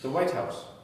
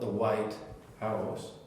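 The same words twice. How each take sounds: First: The two words are joined into one unit. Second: The two words are said as separate items. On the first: It names one single thing. The speaker calls it right. "it's one thing. It's not two items" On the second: It names two separate items. The speaker calls it wrong.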